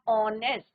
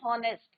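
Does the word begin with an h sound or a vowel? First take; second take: vowel; h sound. First: The word starts directly with a vowel. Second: The word starts with a sounded h. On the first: The speaker calls it right. "H is your silent" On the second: The speaker calls it wrong. "कई बार देखा है कि बच्चे क्या बोलते हैं, हॉनेस्ट, but it's not हॉनेस्ट"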